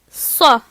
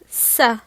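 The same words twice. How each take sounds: First: The consonant is heavy, with emphatic backing. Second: The consonant is light, without emphatic backing. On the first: The speaker calls it right. "je me rappelle encore une fois de l'éléphant bleu qui est grand et gros, et je dis donc ça" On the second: The speaker calls it wrong. "Je ne vais pas dire ça"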